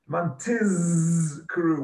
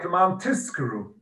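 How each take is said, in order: First: The middle consonant is a voiced z sound. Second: The middle consonant is a voiceless s sound. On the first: The speaker calls it right. "with a Z" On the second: The speaker calls it wrong. "It sounds like a sin, an S rather than a Z"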